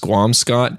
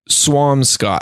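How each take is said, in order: First: The name begins with a 'skw' sound. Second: The name begins with a 'sw' sound. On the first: The speaker calls it wrong. "often mispronounced as Squamscott" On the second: The speaker calls it right. "like a swan with an M"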